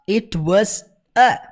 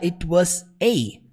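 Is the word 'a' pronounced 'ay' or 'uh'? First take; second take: uh; ay. First: The article 'a' is a short reduced 'uh'. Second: The article 'a' is said like the letter 'ay'. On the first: "ele não fala" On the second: "ele fala it was a ... que é a letra A mesmo"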